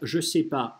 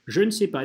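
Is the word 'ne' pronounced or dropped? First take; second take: dropped; pronounced. First: The word 'ne' is dropped entirely. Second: The word 'ne' is clearly pronounced. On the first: This is the casual everyday form. "или просто" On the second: This is the careful standard form. "речевым нормативным вариантом высказываться «je ne sais pas». Вот так вот"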